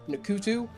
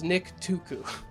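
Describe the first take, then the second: First: It begins with an 'nk' sound cluster. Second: It begins with a full 'nick' syllable. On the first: The speaker calls it wrong. "I want to say Nkutu" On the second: The speaker calls it right. "It's Nick Tuku"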